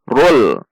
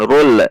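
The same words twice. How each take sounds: First: The final l is held without release. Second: The final l is released with a bounce. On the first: The speaker calls it right. "Tekan di titik lam" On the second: The speaker calls it wrong. "tidak dibaca dengan rul"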